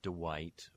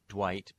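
First: An extra vowel follows the d sound. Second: The d and w join with no vowel between.

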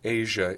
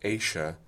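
First: The middle consonant is voiced, a zh sound. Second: The middle consonant is unvoiced, a sh sound. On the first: "voiced Asia" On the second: "unvoiced Asia"

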